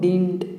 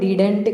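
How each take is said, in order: First: The word is said as one short syllable. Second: The word is said with two full syllables. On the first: The speaker calls it right. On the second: The speaker calls it wrong. "డిడెంట్ కాదు"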